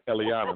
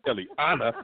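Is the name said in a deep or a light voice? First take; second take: deep; light. First: The name is said deep from the diaphragm. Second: The name is said lightly, not from the diaphragm. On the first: The speaker calls it right. "got to say it from your diaphragm" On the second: The speaker calls it wrong.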